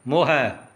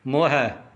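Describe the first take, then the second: The two takes are said the same way.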